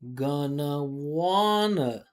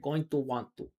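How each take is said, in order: First: The words are reduced and run together. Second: Each word is said fully and separately. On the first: The speaker calls it right. "We say gonna" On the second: The speaker calls it wrong. "We don't say going to want going to want to"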